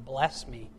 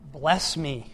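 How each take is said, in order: First: Said in the usual way. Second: Louder second plea, pressed down on bless; insistent plea. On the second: Shown as a demonstration. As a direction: press harder the second time. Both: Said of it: "another way of saying".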